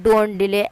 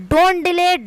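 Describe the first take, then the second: First: Don't delay said low, closing with a firm fall; falling final take. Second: Don't delay said high, with a lifting, unfinished tune; "don't" pitched well up, the line left hanging open; rising model take. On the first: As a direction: drop the pitch and end "don't delay" flat and final. ("don't delay" नीचे सुर में, गिरती हुई पूरी लय के साथ) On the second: ("don't delay" ऊँचे सुर में, उठती हुई अधूरी लय के साथ) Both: Shown as a demonstration. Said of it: "teacher models the sentence".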